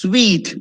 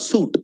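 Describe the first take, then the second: First: It is pronounced like the word sweet. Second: It is pronounced like the word suit. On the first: The speaker calls it right. "it's sweet" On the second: The speaker calls it wrong. "It's not suit. Wrong"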